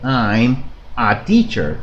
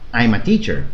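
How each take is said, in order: First: There is a pause between I'm and a. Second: The m of I'm runs straight into a. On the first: The speaker calls it wrong. "hacen una pausa" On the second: The speaker calls it right. "Pegamos la M y la I y decimos ma"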